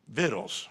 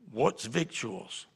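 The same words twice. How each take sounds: First: "victuals" said as VIT-tles, no T or C sounded; correct pronunciation. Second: "victuals" said as VIK-choo-uls with the T sounded; imitating "What's victuals?" sounding the C T slowly; mocked spelling pronunciation. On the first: Shown as a demonstration. Pastor correcting Norval, saying "victuals" as VIT-tles. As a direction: say "victuals" the plain way, VIT-ulz. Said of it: "Food, victuals". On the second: Pastor quoting Norval's question with a hard-T "victuals". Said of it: "there's no T T in there".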